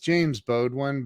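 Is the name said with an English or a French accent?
English. The name is said with a plain English accent. This is how the name is normally said. The speaker calls it right. "It's James Baudouin"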